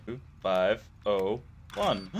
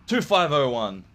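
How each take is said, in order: First: Slow, each digit placed carefully; key it in digit by digit, slowly; careful slow readout of two five oh one; slow deliberate code entry. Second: Said in the usual way. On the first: Shown as a demonstration. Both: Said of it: "Sounds good to me".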